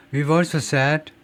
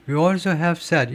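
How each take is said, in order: First: We've also said with the v barely sounded; light v in We've, no vowel after it; contracted we've. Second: We also have said read slowly and carefully; slow careful example read; slow demo reading. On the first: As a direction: swallow the v in We've, slowly. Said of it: "들었어요? 들으셨어요? V, 소리가 들었습니까?". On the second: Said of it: "이렇게 읽어야 돼요". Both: Shown as a demonstration.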